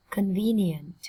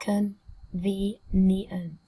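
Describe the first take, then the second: First: Said in the usual way. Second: Very slow CON-VE-NIENT, split into syllables. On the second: Shown as a demonstration. Teacher modelling a new word for students, slowly syllable by syllable. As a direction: sound out Convenient slowly, pausing between syllables. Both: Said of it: "Cô giáo đọc chậm nhá".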